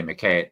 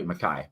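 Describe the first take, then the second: First: McKay said the American way, rhyming with "day"; mispronounced surname. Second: McKay said "muh-KAI", rhyming with "sky"; corrected pronunciation. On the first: Author reviewer slips on the writer's surname, American-style McKay. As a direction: say McKay with a long A, as in "kay". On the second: Reviewer correcting himself on the Scottish writer's name, McKay as "muh-KAI". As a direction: say McKay with a long I at the end. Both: Real, not acted. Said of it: "McKay, sorry".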